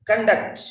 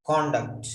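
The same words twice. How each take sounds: First: Weak schwa first in "Conduct", weight on DUCT; "Conduct" said kun-DUCT; verb conduct. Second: "conduct" as KON-duct, lower and falling; full open o in the first syllable of "conduct"; "conduct" stressed on CON; noun conduct. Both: Shown as a demonstration. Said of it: "different pronunciation".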